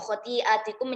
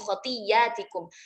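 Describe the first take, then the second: First: A glottal stop is heard in the middle. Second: A doubled y sound replaces the glottal stop.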